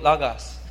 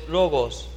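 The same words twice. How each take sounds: First: The first vowel sounds like 'a'. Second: The first vowel sounds like 'o'.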